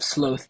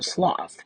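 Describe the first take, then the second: First: The vowel does not rhyme with moth. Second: The vowel rhymes with moth.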